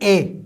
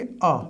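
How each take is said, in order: First: It is a full, long 'ay' vowel. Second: It is a short, soft 'uh' vowel. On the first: The speaker calls it wrong. "ना कि ए" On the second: The speaker calls it right. "हम इसको pronounce करेंगे अ, बिल्कुल soft"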